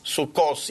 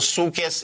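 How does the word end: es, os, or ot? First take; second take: os; es. First: The word ends with an o and an s sound. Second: The word ends with an e and an s sound. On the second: This is the Yiddish form. "Sukkes in Yiddish"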